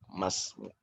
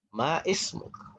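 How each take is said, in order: First: The two words are run together into one word. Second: The two words are kept apart as separate words.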